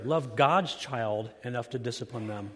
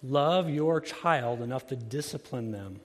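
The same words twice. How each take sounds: First: God's given the key weight, a slight lift on that word; stress on God's. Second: Said in the usual way. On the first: Shown as a demonstration. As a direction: lean on God's to correct the earlier line. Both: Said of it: "let me put it better".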